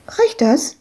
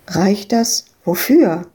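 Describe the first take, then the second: First: Put-on high, eager child voice; little girl. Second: Said in the usual way. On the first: Little Madita asks Ewke if her money is enough, high child voice. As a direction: ask it like a hopeful little girl.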